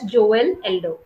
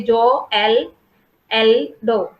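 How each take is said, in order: First: Said in the usual way. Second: "Joel Eldo" broken slowly into separate syllables; wrongly divided name. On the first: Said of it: "you don't say Joel Eldo". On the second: Shown as a demonstration. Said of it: "You don't divide it".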